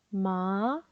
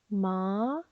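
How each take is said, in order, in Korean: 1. 음이 끝으로 갈수록 올라가요. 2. 음이 끝으로 갈수록 올라가요.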